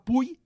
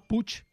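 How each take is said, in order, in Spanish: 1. La palabra termina en un deslizamiento 'y'. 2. La palabra termina en sonido 'ch'. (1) "el Pallars i la Ribagorça fa iot" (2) "en català general, fa txe"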